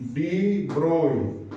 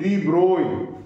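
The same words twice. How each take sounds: First: The name is said with a German pronunciation. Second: The name is said with a French pronunciation. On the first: "is the pronunciation in German language" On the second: "it is a French scientist and uh, the pronunciation is de Broglie"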